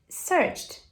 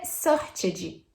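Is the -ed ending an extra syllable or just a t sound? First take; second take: t sound; extra syllable. First: The ending is a short t sound, no syllable. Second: The ending is pronounced as an extra syllable. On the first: The speaker calls it right. "vai ter som de T" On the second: The speaker calls it wrong. "não vai ser searched"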